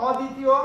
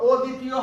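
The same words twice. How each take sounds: First: অদ্বিতীয় opened with a broad "aw": awdditiyo; correct open vowel. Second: অদ্বিতীয় opened with a rounded "o": odditiyo; wrong o-sound. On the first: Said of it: "এখানে অটা পরিবর্তন হবে না". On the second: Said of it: "অদ্বিতীয় হবে না". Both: Shown as a demonstration.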